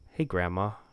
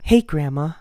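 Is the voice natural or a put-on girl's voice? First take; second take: natural; put-on. First: It is said in the speaker's own deep voice. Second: It is said in a put-on teenage girl voice. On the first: "I'm not gonna do a voice for her. She's me. She's gonna sound like a man" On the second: "an emo 17-year-old girl voice"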